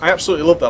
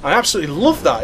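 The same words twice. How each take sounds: First: It is said in the speaker's ordinary voice. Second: It is said in a posh British accent.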